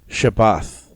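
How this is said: The last consonant is an unvoiced th sound.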